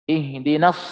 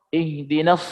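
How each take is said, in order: The two takes are said the same way.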